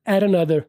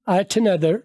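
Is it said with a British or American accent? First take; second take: American; British. First: The t sounds like an American flapped r. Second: The t is said with a British accent.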